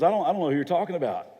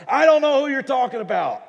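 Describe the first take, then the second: First: Quick, stammered brush-off; hurried denial. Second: Furious high shout; angry cursing denial. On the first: Peter to his first accuser, hurried denial. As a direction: deny it fast, tripping on the first words. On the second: Peter cornered by accusers, shouting angry denial. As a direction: yell the denial at full force. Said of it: "He starts to curse and cuss and says". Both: Acted.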